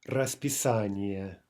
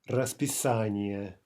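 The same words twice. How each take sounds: The two takes are said the same way.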